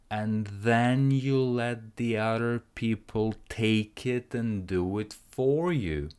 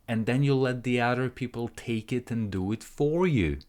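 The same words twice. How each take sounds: First: The sentence is spoken at a slower pace. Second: The sentence is spoken at a faster pace. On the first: "Let's try together"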